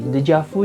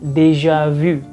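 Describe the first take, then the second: First: It is said with an Indonesian pronunciation. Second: It is said with a French pronunciation. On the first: "dalam bahasa Indonesia kita bisa temuin beberapa variasi" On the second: "dalam bahasa Prancis itu udah jelas cara bacanya"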